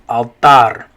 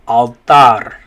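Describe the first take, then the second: Both takes have the same delivery.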